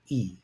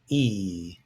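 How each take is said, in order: First: The vowel is held only briefly. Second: The vowel is held for a longer time. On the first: "I will then pronounce them short and then long" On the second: "I will then pronounce them short and then long"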